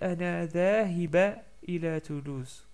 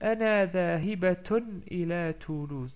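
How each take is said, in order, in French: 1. Le mot finit par un 'a' simple. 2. Le mot finit par un 'atun' complet. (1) "j'ai pas dit Ana dhahiba ila Toulouse" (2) "comme je continue la phrase, je dis Ana dhahibatun"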